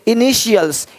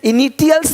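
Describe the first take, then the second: First: The middle consonant is a 'sh' sound. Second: The middle consonant is a 't' sound. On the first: The speaker calls it right. "टी का ध्वनि श होता है" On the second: The speaker calls it wrong. "नहीं बोलते"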